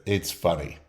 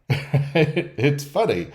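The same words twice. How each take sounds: First: Said in the usual way. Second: Drawn out slowly through a laugh; laughing mock quote. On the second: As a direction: stretch it out, chuckling as you go. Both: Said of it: "they like to start with".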